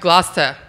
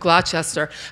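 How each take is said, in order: First: The name is said with part of it dropped. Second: The name is said with all its spelled syllables. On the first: The speaker calls it right. "Half of it doesn't get pronounced" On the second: The speaker calls it wrong. "You know I just mispronounced that town's name"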